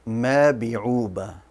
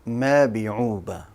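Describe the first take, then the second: First: The word uses b sounds in place of n. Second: The same.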